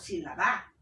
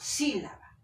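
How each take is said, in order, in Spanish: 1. El acento cae en una sílaba posterior. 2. El acento cae en la primera sílaba. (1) "yo no digo sílaba o sílaba" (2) "digo sílaba. Acá la fuerza de voz está en sí"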